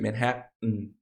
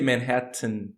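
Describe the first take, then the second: First: The second T is a glottal stop before nasal release. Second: The second T is a soft, lightly released sound. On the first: "but it's very common to say Manhattan" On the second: "you can say Manhattan with a soft T"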